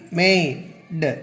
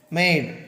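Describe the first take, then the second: First: மேய்டு broken as "may", pause, "d"; phonics sounding-out. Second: Said in the usual way. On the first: Shown as a demonstration. Teacher showing how a final E changes A, sounding out. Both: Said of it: "அந்த உச்சரிப்பின் மூலமாக".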